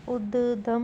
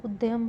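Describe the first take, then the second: First: उद्यम said as ud-dam, no y; wrong pronunciation. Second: उद्यम said as ud-yam; correct pronunciation. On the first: Teacher showing a spelling error, उद्यम as ud-dam. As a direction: drop the y from उद्यम. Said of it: "नहीं होगा". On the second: Teacher giving the correction, उद्यम as ud-yam. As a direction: sound the y in उद्यम. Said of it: "होगा". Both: Shown as a demonstration.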